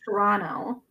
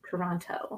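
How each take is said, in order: First: It is said with the local pronunciation. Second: It is said with an outsider's pronunciation. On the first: The speaker is from the city. "it's Toronto if you're from here" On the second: The speaker is not from the city. "And if you're not, it's Toronto"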